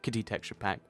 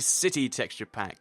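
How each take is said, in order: First: The name begins with a hard K sound. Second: The name begins with a soft S sound.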